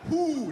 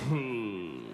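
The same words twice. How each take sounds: First: It is said crisply with tight lips. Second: It is slurred lazily with loose lips.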